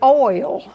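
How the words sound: The vowel glides from O to I. "which linguistically is probably how you're supposed to pronounce that"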